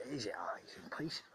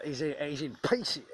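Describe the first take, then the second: First: He's in pieces whispered, voiceless. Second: Said in the usual way. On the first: Real, not acted. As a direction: drop to a hushed whisper. Repeats line, then whispers.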